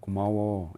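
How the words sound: It is said calmly and quietly. The gratitude comes across as sincere. The speaker calls it right. "그냥 차분하게"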